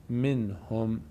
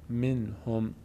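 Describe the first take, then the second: Both takes have the same delivery.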